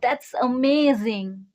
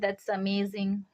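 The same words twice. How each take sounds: First: It sounds excited and enthusiastic. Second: It sounds mean and sarcastic. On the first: The speaker is genuinely impressed. "The first one is very enthusiastic" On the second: The speaker is not really impressed. "second was is little mean or sarcastic"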